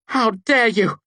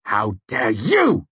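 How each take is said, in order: First: High, loud furious shout. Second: Slow, louder angry retort; spat angrily. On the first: Devi shouting at the narrator who bound her. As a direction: scream it at him. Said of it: "she shouted". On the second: Narrator spitting back at Devi, angry. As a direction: spit the words back at her. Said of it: "I spat back angrily". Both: A narrator's reading.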